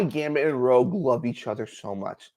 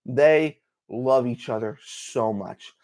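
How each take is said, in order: First: Said in the usual way. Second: Slow, quiet, heartfelt repeat; slow emphasis. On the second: Real, not acted. Fan stressing how much Gambit and Rogue love each other, slow emphasis. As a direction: let each word land slowly.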